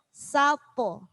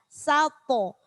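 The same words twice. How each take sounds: The two takes are said the same way.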